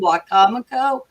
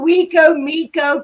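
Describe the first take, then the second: First: The name is run together as one word. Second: The name is split into two parts. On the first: Locals say it this way. The speaker calls it right. "Do you mean Wacomico?" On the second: A newcomer reads it from the spelling. The speaker calls it wrong. "She said"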